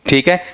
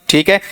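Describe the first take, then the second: No difference in how they are said.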